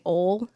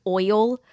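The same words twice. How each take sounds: First: "ole" for oil, in one syllable; Southern slip. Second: "oil" with a full oy glide; standard pronunciation. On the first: Actor showing her accent slip, "ole" as one Southern syllable. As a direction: say "ole" the Southern way, rhyming with hole. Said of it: "I slip up, like saying". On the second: Actor showing the corrected word, "oil" with clear oy. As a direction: say "oil" carefully, oy then l. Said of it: "instead of, like". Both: Shown as a demonstration.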